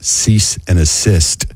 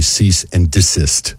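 First: Slow "cease and assist", no D before assist; misheard phrase. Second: Slow "cease and desist", clear D starting desist; correct phrase. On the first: Host reads a confession, wrongly saying "cease and assist". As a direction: say "cease and assist", assist in place of desist. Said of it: "was really cease and desist". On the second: Host gives the real phrase, clearly saying "cease and desist". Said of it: "was really". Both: Shown as a demonstration.

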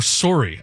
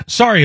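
First: Canadian "sorry", with a rounded "oh" vowel; Canadian accent. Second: Said in the usual way. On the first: Shown as a demonstration. Host joking he is French Canadian, Canadian accent on "sorry". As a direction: say "sorry" as "sore-ee", Canadian style. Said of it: "now I'm French Canadian".

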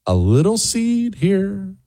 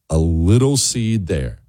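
First: Gentle, sing-song. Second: Gentle, settling. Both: Real, not acted.

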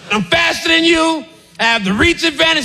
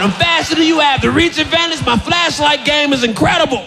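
First: Mock boasting guard; cocky boast. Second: High, shouted smug brag; mock boasting guard; cocky boast. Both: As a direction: gloat like a champion.

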